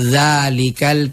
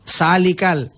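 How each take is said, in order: First: The word begins with a z sound. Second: The word begins with an s sound. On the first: It is the corrected pronunciation learned through study. The speaker calls it right. "tapi za" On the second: It shows the influence of the Bugis mother tongue. The speaker calls it wrong. "punda bugis sa"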